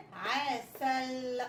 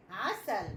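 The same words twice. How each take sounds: First: عسل slowly stretched as aa-sall; slow, drawn-out عسل; sounded-out word. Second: Said in the usual way. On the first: Shown as a demonstration. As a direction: blend عسل syllable by syllable, holding the l. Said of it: "بقت كلمة". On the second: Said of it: "كلمة إيه؟".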